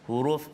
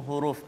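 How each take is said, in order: No difference in how they are said.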